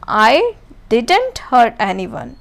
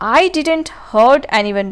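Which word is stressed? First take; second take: didn't; I. First: The word didn't is stressed. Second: The word I is stressed. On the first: "अब यहाँ पे didn't नहीं किया, इस पे जोर दे रहा है।" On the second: "अब यहाँ पे आई पे इम्फेसिस दिया हुआ है"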